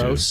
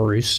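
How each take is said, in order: First: The vowel sounds like the one in 'nose'. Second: The vowel sounds like the one in 'moose'. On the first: It is the accepted pronunciation of the name. "Rose is how you pronounce it" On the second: It follows the spelling of the name. "I like to call him a Roos just because it's R O O S"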